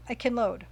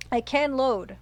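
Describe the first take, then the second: First: Said in the usual way. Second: "can" stressed and a little louder. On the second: Real, not acted. Streamer realizing a save exists, stress on "can". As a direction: lean firmly on the word "can".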